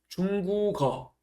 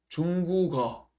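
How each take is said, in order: The two takes are said the same way.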